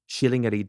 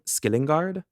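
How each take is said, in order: First: The name is read the official Swedish way. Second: The name is read as its spelling suggests. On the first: The speaker calls it right. "the official pronunciation I looked up" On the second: The speaker calls it wrong. "the way it's written looks like"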